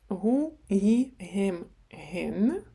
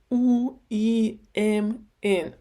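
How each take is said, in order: First: Each word begins with a soft h sound. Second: Each word is said without the h sound. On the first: "Саме м'яка гей" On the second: "Багато людей кажуть"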